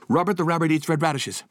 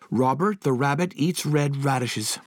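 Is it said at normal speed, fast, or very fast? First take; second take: very fast; fast. First: It is said very fast, fastest of all. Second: It is said faster than normal speed.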